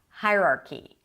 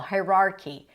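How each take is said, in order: First: The stress falls on the first syllable. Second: The stress falls on a later syllable. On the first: The speaker calls it right. "The stress is always on the first syllable" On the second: The speaker calls it wrong. "I heard that as well"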